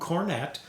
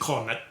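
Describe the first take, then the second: First: It is said with an American pronunciation. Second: It is said with a British pronunciation. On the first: "American long cornet" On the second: "for those of you in the U K and around the world, it's a cornet"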